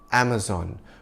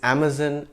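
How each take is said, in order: First: The last syllable rhymes with Don, American style. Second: The word is said in a British way. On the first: "the American pronunciation of the name" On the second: "the British pronunciation for the rainforest"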